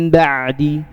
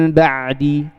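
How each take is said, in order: No difference in how they are said.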